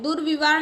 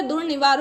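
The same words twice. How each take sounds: First: दुर्विवार with "vi" after "dur"; wrong form. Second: दुर्निवार with "ni" after "dur"; "dur-ni-vaar" for दुर्निवार; correct form. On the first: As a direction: say दुर्विवार with a v sound in the middle. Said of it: "दुर्विवार नहीं होता है". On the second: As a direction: say दुर्निवार with an n sound in the middle. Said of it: "दुर्निवार होता है". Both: Shown as a demonstration.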